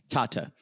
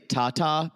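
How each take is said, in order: First: The final vowel is a weak 'uh' sound. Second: Both vowels are a full 'ah', like tatas. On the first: The speaker calls it right. "Like almost think of it as T A H T U H" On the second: The speaker calls it wrong. "Please don't say Tata, which sounds like boobies"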